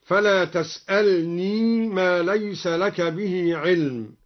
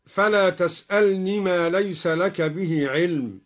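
First: تسألني with the ya kept in joined reading; slow, say تسألني with its final ya sounded; Duri reading. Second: Said in the usual way. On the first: Shown as a demonstration. (تسألني بإثبات الياء وصلا) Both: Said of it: "أثبت الدوري الياء وصلا".

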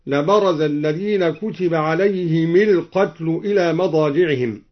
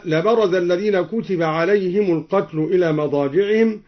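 First: عليهم القتل linked as "alayhimil-qatl"; kasra on mim. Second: Said in the usual way. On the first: Shown as a demonstration. Teacher showing al-Duri's reading, عليهم القتل as "alayhimil-qatl". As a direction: give the m of عليهم an i before القتل. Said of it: "كسر الدوري الميم مع الهاء وصلا هكذا". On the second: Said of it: "كسر الدوري الميم مع الهاء وصلا".

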